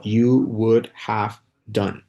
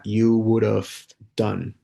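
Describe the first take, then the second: First: "you would have done" drawn out very slowly, each word clear; slow model pronunciation. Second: Said in the usual way. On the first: Shown as a demonstration. Teacher slowly models "you would have done" for students. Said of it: "Es como". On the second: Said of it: "hay una forma gramatical que se utiliza".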